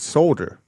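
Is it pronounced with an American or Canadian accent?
Canadian. It is pronounced the Canadian way.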